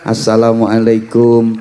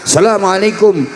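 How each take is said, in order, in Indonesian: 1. Salam ini diucapkan dengan nada yang biasa dan sopan. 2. Salam ini diucapkan dengan nada tinggi. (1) "muridnya sambil membungkukkan badan assalamualaikum begini kalau di Indonesia" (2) "salamnya pakai nada tinggi"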